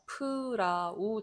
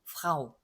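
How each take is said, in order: First: A short vowel is inserted after the F. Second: The F and R join with no vowel. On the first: The speaker calls it wrong. "근데 그렇게 읽으면 안 된다고 했죠" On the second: The speaker calls it right. "거의 F하고 R가 잘 안 들릴 정도로"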